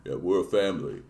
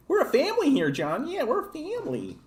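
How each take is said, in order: First: Lower, softer gruff tough-guy voice; low, earnest action-hero murmur; Vin Diesel impression. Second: Much higher, softer mocking Vin Diesel line; squeaky parody of an action-movie tough guy. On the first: Streamer parodying Vin Diesel's family speech, low and soft. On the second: Streamer mocking a movie family speech, squeaky high voice. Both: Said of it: "Vin Diesel".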